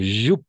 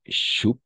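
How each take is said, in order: First: It begins with a voiced 'zh' sound. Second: It begins with a voiceless 'sh' sound. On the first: The speaker calls it right. "sinon joup" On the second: The speaker calls it wrong. "Non, ch, sinon j"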